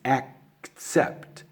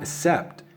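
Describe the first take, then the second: First: The first syllable has a clear k sound. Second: The first syllable has no clear k sound. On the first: The speaker calls it right. "it's accept, ... you got to get all those little sounds there" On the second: The speaker calls it wrong. "It's not accept"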